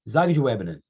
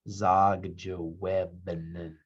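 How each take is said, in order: First: The word is said quickly and run together. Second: The word is said slowly and carefully. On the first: The speaker calls it wrong. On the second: The speaker calls it right.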